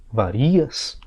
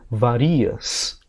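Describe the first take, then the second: First: The stress is on the second syllable. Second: The stress is on the second syllable.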